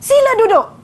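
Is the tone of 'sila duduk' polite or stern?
stern. It is said in a firm, stern tone. A command to unruly pupils to sit down at once. "bukan begitu nada saya"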